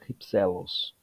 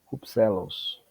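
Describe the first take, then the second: First: "Hypselos" said with a silent h, ipsélos. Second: "Rupselos" opened with a breathy h, hupsélos; aspirated rupselos. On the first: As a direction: start "Hypselos" straight on the vowel, no aspiration. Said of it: "Ou rupselos também". ("Hypselos" sem aspiração, ipsélos) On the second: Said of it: "Pode ser rupselos". ("Rupselos" com aspiração inicial, hupsélos) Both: Shown as a demonstration.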